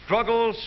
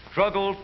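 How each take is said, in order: Both takes have the same delivery.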